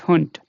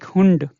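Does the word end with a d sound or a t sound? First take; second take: t sound; d sound. First: The word ends with a voiceless t sound. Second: The word ends with a voiced d sound. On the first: The speaker calls it right. "it is hunt" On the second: The speaker calls it wrong. "the sound of day here is not like hund"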